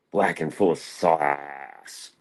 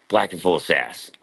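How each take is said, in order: First: Drawn out very slowly, word by word; slow punchline. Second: Said in the usual way. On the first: Pretend. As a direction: savour each word like a punchline. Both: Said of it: "Like I like my women".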